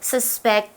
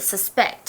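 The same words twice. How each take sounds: First: The stress is on the first syllable. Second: The stress is on the second syllable. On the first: The word is used as a noun. The speaker calls it wrong. "不是 suspect" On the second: The word is used as a verb. The speaker calls it right. "好 ，suspect OK"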